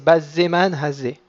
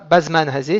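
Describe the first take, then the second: First: The z sound is long and doubled. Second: The z sound is short and single. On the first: The speaker calls it right. "il faut ralentir sur le zaïn parce qu'il porte un dagesh" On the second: The speaker calls it wrong. "C'est pas bazman hazé"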